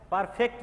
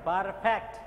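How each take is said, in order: First: "পারফেক্ট" with a close "fekt" ending; wrong pronunciation. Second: "পারফেক্ট" with an open, lengthened "faekt"; corrected pronunciation. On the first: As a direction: say "পারফেক্ট" as "par-fekt", quick, the mistaken way. ("পারফেক্ট" ফেক্ট ধ্বনি দিয়ে ভুল উচ্চারণ) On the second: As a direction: model "পারফেক্ট" as "par-FAEKT". ("পারফেক্ট" ফ্যাক্ট ধ্বনি দিয়ে শুদ্ধ উচ্চারণ) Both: Shown as a demonstration. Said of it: "পারফেক্ট নয়".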